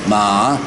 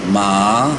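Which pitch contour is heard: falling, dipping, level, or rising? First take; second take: rising; rising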